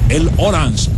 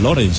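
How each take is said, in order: First: The name is mangled to sound like 'el Orange'. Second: The name is said in its usual form. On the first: The speaker calls it wrong. "decían el Orange" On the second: The speaker calls it right. "pronunciaban muy mal lo de Lawrence"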